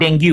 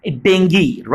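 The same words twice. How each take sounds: First: Dengue said as "den-goo", ending in oo; the rejected dengue, den-goo; wrong pronunciation. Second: Dengue said as "DENG-gee"; correct English pronunciation. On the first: Teacher naming the mistake, dengue as den-goo. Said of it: "Not dengue". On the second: Teacher giving the right form, dengue as DENG-gee. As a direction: dengue with a hard g and an ee ending. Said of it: "The correct pronunciation of this disease is dengue". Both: Shown as a demonstration.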